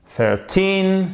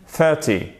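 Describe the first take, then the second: First: Put-on "Thirteen" with a long, high TEEN; stress on TEEN. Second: "thirty" with THIR strong and a short end; stress on THIR. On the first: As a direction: hold up the end of "Thirteen". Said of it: "sur la seconde syllabe". (accent haut et long sur la fin de « Thirteen ») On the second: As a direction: hit the first syllable of "thirty". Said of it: "elle est sur la première syllabe". (accent sur le début de « thirty ») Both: Shown as a demonstration.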